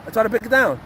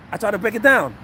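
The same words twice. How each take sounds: The two takes are said the same way.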